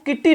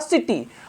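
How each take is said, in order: First: The word begins with a k sound. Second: The word begins with an s sound. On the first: The speaker calls it wrong. "हमने इसको किट्टी नहीं पढ़ा" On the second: The speaker calls it right. "मैंने पढ़ा सिटी"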